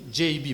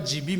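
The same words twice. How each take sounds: First: J B said as "jay bee"; J B as English "djay bee"; correct English pronunciation. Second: G B said as "jee bee"; G B with an ee in both letters; mistaken pronunciation. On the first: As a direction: give J B an ay, then an ee. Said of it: "mais c'est". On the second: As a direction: show the slip "jee bee" for G B. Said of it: "Ne dites pas". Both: Shown as a demonstration.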